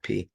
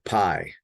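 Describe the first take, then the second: First: It uses the Erasmian Greek pronunciation. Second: It uses the American math-class pronunciation. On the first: "with a raspberry pronunciation, pronunciation, we call it P" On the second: "in math class years ago here in the United States, we would call it pi"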